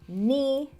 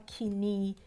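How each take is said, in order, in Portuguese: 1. O som inicial do K é mudo. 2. O som inicial do K é pronunciado. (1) "a gente fala" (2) "A gente não fala"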